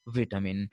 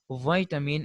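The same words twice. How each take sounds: First: Vitamin as "VIT-amin"; short i in vitamin; British pronunciation. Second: Vitamin as "VYE-tamin"; American pronunciation. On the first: Teacher contrasting with the American, vitamin as "VIT-amin". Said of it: "instead of". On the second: Teacher showing American English, vitamin as "VYE-tamin". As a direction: eye diphthong in vitamin. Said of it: "I sound in the American English". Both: Shown as a demonstration.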